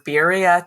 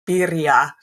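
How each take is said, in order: First: The word is said with English sounds. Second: The word is said with Spanish sounds. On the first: The speaker calls it wrong. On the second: The speaker calls it right.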